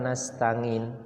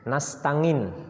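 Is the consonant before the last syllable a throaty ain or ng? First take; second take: ain; ng. First: The throaty ain consonant is pronounced clearly. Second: An ng sound replaces the throaty ain consonant. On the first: The speaker calls it right. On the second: The speaker calls it wrong.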